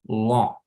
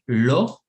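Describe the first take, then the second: First: The L is thick, tongue spread on the palate. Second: The L is a light, Spanish-style L. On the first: The speaker calls it right. "y digo lo" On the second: The speaker calls it wrong. "evito decir lo"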